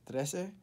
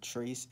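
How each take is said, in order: First: It is pronounced as the Spanish word trece. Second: It is pronounced like the English word trace. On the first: The speaker calls it right. "trece is the Spanish word for thirteen" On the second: The speaker calls it wrong. "it's not Trace"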